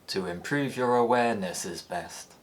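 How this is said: The pitch falls and the ending stays low. "the pre-head and tail remain low"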